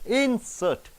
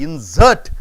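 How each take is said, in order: First: The stress is on the first syllable. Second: The stress is on the second syllable. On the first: It names a thing that is put in. "it is a noun" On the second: It means to put something in. "This S E R T, insert, it is a verb"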